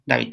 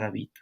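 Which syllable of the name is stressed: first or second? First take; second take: first; second. First: The stress is on the first syllable. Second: The stress is on the second syllable. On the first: It is thought of from Nahuatl. "lo están pensando desde náhuatl" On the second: It is thought of from Spanish. "pensado desde español"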